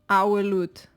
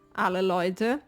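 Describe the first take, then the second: First: The L in alle becomes a U sound. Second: The L in alle is a clear L sound.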